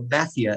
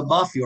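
First: "mafia" said the British way, short flat first A; British "mafia", first vowel as in "cat"; British pronunciation. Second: Said in the usual way. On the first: Shown as a demonstration. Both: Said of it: "as the British pronounce it".

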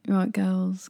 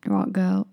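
First: Said in the usual way. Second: Badly faked American accent; tentative try at an American accent; attempted American accent. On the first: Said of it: "sorry, how do you say it? American". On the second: Bouncer to English girls, attempted American accent.

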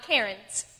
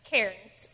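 First: "Karens" said like the woman's name; "Karens", the mispronunciation to avoid; mistaken pronunciation. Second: "cairns" as the stone-pile word; "cairns" restated as the correct word; corrected pronunciation. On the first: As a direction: say "Karens" slowly as the wrong version. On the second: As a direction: say "cairns", distinct from the name Karens. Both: Shown as a demonstration. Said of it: "and not Karens".

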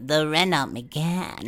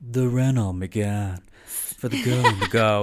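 First: Slow, higher celebrity impression; Erica. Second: Slow, loud car-ad impression; Luann. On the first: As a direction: draw out the car name in a put-on voice. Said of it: "almost the way she kind of". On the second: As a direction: put on a drawn-out reality-star ad voice. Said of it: "I'm imagining Luann being like".

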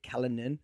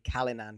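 First: Callanan with the last syllable reduced to a quick "nun"; alternative pronunciation. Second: Said in the usual way. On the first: Shown as a demonstration. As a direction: say Callanan with a weak, unstressed ending. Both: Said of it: "I've just been saying Callanan".

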